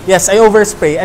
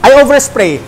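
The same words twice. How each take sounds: First: Said in the usual way. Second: I overspray said louder, punched on I; emphatic confession. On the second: Real, not acted. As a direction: proudly declare I overspray. Confessing his heavy spraying. (madiing pag-amin na I overspray)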